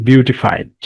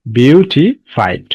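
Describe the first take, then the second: First: Said in the usual way. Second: "বিউটিফাইড" slowly, split as beau, ti, fied with gaps; syllable by syllable. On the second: Shown as a demonstration. Teacher showing students the past form "বিউটিফাইড", slowly, syllable by syllable. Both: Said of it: "একাধিক syllable আছে".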